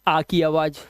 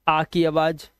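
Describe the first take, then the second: No difference in how they are said.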